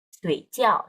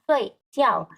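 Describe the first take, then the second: First: The syllables carry tones that are not falling. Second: Both syllables carry a sharp falling tone. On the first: It means dumpling. "Kalau kamu salah nada, jadi adalah dumpling" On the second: It means to sleep. "Sui jiao itu nadanya keempat ya"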